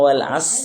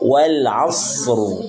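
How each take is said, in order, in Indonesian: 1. Bunyi s-nya biasa, ringan. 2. Bunyi s-nya berat, emfatis. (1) "jangan wal as ... berarti sin yang sukun" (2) "Tapi langsung so wal asru"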